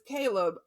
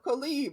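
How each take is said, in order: First: The name is said with English pronunciation. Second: The name is said with Spanish pronunciation. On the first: "my son's name is Caleb" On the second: "some Spanish speakers call him Caleb"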